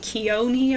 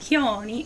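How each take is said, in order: First: The name starts with a clear K sound. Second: The name starts with a soft breathy sound. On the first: "or you can call me Kioni if you want" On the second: "The K is kind of silent"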